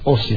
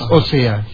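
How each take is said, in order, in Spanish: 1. El acento está en la primera sílaba. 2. El acento está en la segunda sílaba. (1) "sino ósea" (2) "no es ósea"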